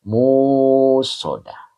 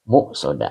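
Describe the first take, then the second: First: The first vowel is drawn out long. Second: A glottal stop follows the first syllable. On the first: "Jadi dipanjangnya panjang ya" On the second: "Jadi menggunakan hamzah"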